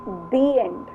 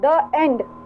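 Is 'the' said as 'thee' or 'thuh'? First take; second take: thee; thuh. First: 'The' is said with a long 'thee' vowel. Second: 'The' is said with a short 'thuh' vowel. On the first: The speaker calls it right. "हमें कैसे pronounce करना है" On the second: The speaker calls it wrong. "तो गलत हो जाएगा"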